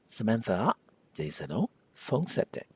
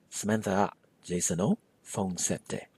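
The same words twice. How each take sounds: First: The marker after Jason is reduced to o. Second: The same.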